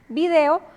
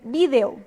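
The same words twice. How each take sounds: First: The stress falls on the second syllable. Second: The stress falls on the first syllable. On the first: This is how it is said in Latin America. "Aquí en Latinoamérica solemos decir video" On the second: This is how it is said in Spain. "en España ellos dicen video ... Y acentúan también"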